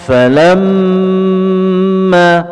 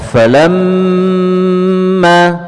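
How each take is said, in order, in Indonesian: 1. Bunyi m ditahan panjang, dengan dengung. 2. Bunyi m ditahan panjang, dengan dengung.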